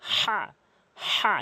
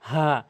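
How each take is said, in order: First: The h is harsh, from mid-throat. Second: The h is light and breathy. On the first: The speaker calls it right. "হা হলকের মাঝখান থেকে বলতে হবে" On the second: The speaker calls it wrong. "এটি বলা যাবে না"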